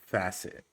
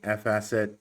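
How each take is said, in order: First: It is said as one word, 'facet'. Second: It starts with the letter F, then 'asset'. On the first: The speaker calls it right. "but it's Facet" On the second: The speaker calls it wrong. "I've been saying F Asset"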